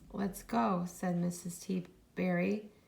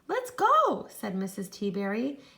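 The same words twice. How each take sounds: First: It is read in a flat voice. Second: It is read in an excited voice.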